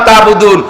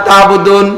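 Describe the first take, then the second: The two takes are said the same way.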